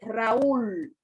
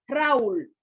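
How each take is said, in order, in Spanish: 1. Las dos vocales se pronuncian en sílabas separadas. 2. Las dos vocales se unen en una sola sílaba. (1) "usted dice Raúl" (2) "Usted no dice Raúl, que es como se pronuncian los diptongos"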